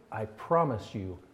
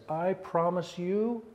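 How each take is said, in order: First: Angry God. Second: A hint of an upset God, higher and slow; angry God. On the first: Acted. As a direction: let the second promise sink down quiet. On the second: Pastor voicing an upset God vowing to Israel, mildly angry. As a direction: swear it slowly from on high. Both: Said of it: "an angry God who is so upset".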